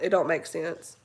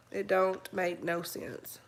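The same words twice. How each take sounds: First: Said in the usual way. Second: Whispered slowly under the breath; slow disbelieving whisper. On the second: Real, not acted. Repeats line, then whispers it.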